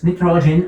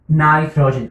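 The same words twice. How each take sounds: First: Nitrogen opening on an "ee" vowel, NEE-tro-jen; first of both ways. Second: Nitrogen opening on an "eye" vowel, NIGH-tro-jen; second of both ways. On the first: Teacher reminding students of both ways, nitrogen said NEE-tro-jen. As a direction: say nitrogen starting like "knee". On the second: Teacher reminding students of both ways, nitrogen said NIGH-tro-jen. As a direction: say nitrogen starting like "night". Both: Shown as a demonstration. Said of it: "So you can say both ways".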